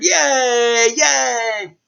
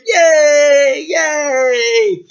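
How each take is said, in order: First: High, loud excited cheer; crowd cheering. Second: Very high, loud jubilant cheer; crowd cheering. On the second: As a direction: shout for joy like a whole town. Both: Acted. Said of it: "everyone cheered".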